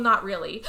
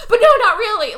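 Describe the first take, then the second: First: Said in the usual way. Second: High, loud protest; mock emphatic denial. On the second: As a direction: repeat it loudly with exaggerated insistence.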